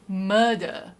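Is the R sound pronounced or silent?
silent. It is said in a British accent, R silent.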